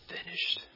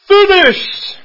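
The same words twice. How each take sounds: First: The word is said low and quietly. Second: The word is said loudly and forcefully. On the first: "一个很低的说成了" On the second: "很大声地说成了"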